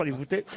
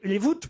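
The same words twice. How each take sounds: First: "Voûtés" with a sounded final é; "Voûtés" rhyming with "écoutez"; mistaken pronunciation. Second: "Voûtes" with a silent final e; "Voûtes" rhyming with "toutes"; corrected pronunciation. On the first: Shown as a demonstration. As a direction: say "Voûtés" in two syllables, ending in "té". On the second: Real, not acted. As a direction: say "Voûtes" as one syllable, ending on a t. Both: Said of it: "Les Voûtes, pardon".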